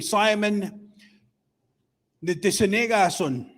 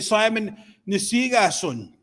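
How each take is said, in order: First: The second word is said with all its syllables. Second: The second word is clipped, with syllables dropped. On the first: The speaker calls it right. "Instead of saying" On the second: The speaker calls it wrong. "people are taking shortcuts"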